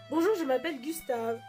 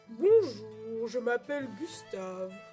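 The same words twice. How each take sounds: First: It is said in his natural voice. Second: It is said in a put-on character voice.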